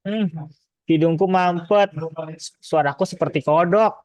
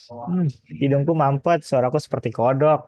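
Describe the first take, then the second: First: Blocked nose voice. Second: Slow stuffy-nosed ad voice; blocked nose voice. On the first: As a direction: imitate a congested cold-medicine ad. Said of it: "kayak iklan gini". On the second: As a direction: imitate a cold-medicine commercial, congested. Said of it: "suara Pak Fai kayak gitu". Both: Retold or imitated.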